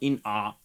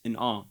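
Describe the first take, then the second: First: The word in gets the stress. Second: The word awe gets the stress. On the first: The speaker calls it wrong. "No, it's not in awe" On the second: The speaker calls it right. "the ah should get more stress and the in should get less"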